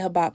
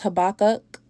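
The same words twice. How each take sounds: First: The name is said in a shortened form. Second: The name is said in its full form. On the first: "I'm going to say Habakkuk for short" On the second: "It's really pronounced Habakkuk"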